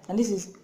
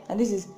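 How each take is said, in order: Both takes have the same delivery.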